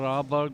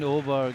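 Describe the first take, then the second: First: The name begins with an 'ah' vowel. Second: The name begins with an 'oh' vowel. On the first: The speaker calls it wrong. "I used to call her Aberg" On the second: The speaker calls it right. "in Danish A A is pronounced O"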